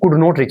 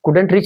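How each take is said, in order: First: It is said in full as could not. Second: It is said as the contraction couldn't. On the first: "या फिर could not reach बोल सकते हैं आप" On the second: "couldn't reach बोलो"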